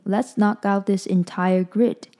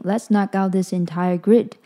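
First: It is read a bit more slowly. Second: It is read at a normal pace.

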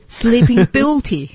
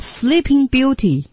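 First: The word beauty carries the stress. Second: The word sleeping carries the stress. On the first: The speaker calls it right. "是sleeping beauty" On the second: The speaker calls it wrong. "你就不能说sleeping beauty。"

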